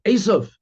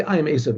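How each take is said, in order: First: "Esav" said higher as one emphatic word; name alone, emphasised. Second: Said in the usual way. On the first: Retold or imitated. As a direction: punch out "Esav" on a raised, falling pitch. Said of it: "He said". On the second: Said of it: "He didn't say".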